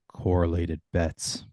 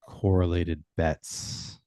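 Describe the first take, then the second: First: It is said softly and fairly slowly. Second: It is said softly and even more slowly.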